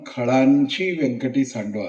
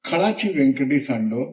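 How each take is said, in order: First: The vowel before 'chi' is nasalized. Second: The vowel before 'chi' is plain, not nasalized. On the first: The wickedness is seen as belonging to others outside. The speaker calls it wrong. "मी स्वतःशी जेव्हा म्हणेन तेव्हा खळांची व्यंकटी सांडो असं नाही" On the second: The wickedness is seen as one's own, within. The speaker calls it right. "अनुस्वार काढल्याबरोबर ... बहिर्गामी दृष्टी अंतर्गामी होते"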